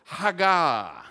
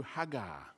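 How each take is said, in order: First: Hagar called out loud as HAH-gah; loud Hebrew Hagar with open a; Hebrew word. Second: Hagar said softly as hah-gar; quiet Hebrew hagar, stress on first syllable; Hebrew word. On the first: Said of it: "Everyone say hagar". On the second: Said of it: "The Hebrew word is". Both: Shown as a demonstration.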